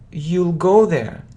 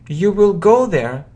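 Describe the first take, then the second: First: Will is shortened and joined to you. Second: The word will is said in full.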